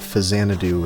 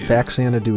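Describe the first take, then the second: First: The first syllable is followed by a 'z' sound. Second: The first syllable ends in a 'ks' sound. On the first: The speaker calls it wrong. "Fazanadu and other things are nay" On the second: The speaker calls it right. "Faxanadu is yay"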